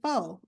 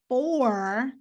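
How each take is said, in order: First: The r at the end is dropped. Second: The r at the end is pronounced.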